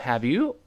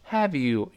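First: The voice rises at the end. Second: The voice falls at the end. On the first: It asks a real question expecting an answer. The speaker calls it wrong. "注意不要到have you" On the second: It reacts without expecting an answer. The speaker calls it right. "have you 语气降一下"

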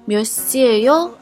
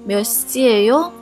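Both takes have the same delivery.

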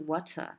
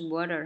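First: The middle t is crisply pronounced. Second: The middle t is smoothed over quickly. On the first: The speaker calls it wrong. "它不是water" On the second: The speaker calls it right. "它也是water"

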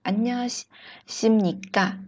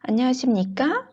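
First: The voice falls at the end. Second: The voice rises at the end.

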